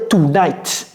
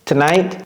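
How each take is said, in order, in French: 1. L'accent est sur la première syllabe. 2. L'accent est sur la deuxième syllabe. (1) "il ne faut pas dire tonight"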